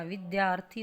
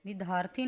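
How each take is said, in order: First: विद्यार्थी as vid-dyaarthi, with y; correct dya cluster. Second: विद्यार्थी as vid-haarthi, y dropped; wrong, no y sound. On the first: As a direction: sound the y clearly in विद्यार्थी. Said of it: "विद्यार्थी होता है". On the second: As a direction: drop the y from विद्यार्थी. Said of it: "विद्यार्थी नहीं होता". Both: Shown as a demonstration.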